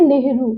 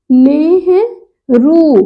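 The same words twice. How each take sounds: First: नेहरू said quickly, vowels not held; quick wrong pronunciation. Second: नेहरू very slowly, syllable by syllable; drawn-out correct pronunciation. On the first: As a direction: say नेहरू short and casual. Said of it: "लेकिन ये गलत है". (नेहरू का जल्दी वाला गलत उच्चारण) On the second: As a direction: stretch नेहरू with a long final rū. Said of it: "ऐसे मात्रा लग जाएगा". (नेहरू धीरे-धीरे, लंबे ऊ के साथ) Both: Shown as a demonstration.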